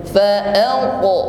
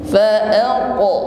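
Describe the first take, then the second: No difference in how they are said.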